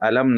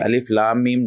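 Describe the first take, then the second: First: The letters are blended into one short word. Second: Three separate letter names are read one by one. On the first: The speaker calls it wrong. "इस तरीके से अलम नहीं पढ़ा जाता" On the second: The speaker calls it right. "अलिफ अलग पढ़ा जाता है, लाम अलग पढ़ा जाता है और मीम अलग"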